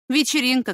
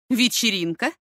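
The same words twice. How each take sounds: First: ВЕЧЕРИНКА as a statement, falling at the end. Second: ВЕЧЕРИНКА as a question, rising at the end; questioning echo. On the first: Son admits the party to his mother, ВЕЧЕРИНКА falling. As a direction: say ВЕЧЕРИНКА with a higher start, dropping down. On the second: Mother challenges her son's word, ВЕЧЕРИНКА rising. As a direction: throw ВЕЧЕРИНКА back with a rising tune. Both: A narrator's reading.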